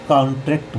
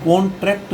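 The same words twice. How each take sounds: First: कॉन्ट्रैक्ट with open "aa", kaantrekt; corrected pronunciation. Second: कॉन्ट्रैक्ट with a round "o", kontrekt; wrong pronunciation. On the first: Teacher gives students the right form, corrected pronunciation. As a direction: open the first vowel of कॉन्ट्रैक्ट to "kaan". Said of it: "कॉन्ट्रैक्ट बोलेंगे". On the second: Teacher shows students what not to say, wrong pronunciation. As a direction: round the first vowel of कॉन्ट्रैक्ट to "kon". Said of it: "यहाँ कॉन्ट्रैक्ट नहीं बोलेंगे". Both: Shown as a demonstration.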